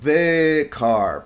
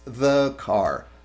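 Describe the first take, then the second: First: The vowel in 'the' is full and clear. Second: The vowel in 'the' is a reduced schwa. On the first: The speaker calls it wrong. "no decimos" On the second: The speaker calls it right. "realmente es"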